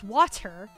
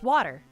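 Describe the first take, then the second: First: The word is said slowly and carefully. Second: The word is said quickly and casually.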